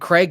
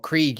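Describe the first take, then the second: First: The name sounds like Craig. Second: The name sounds like Krieg. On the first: This is how the speaker says the name. "I've always said it was Craig" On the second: This is how the show says the name. "Krieg as they pronounce it"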